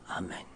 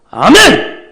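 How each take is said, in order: First: It is said weakly and flatly. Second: It is said loudly and forcefully.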